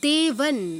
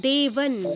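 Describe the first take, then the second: The two takes are said the same way.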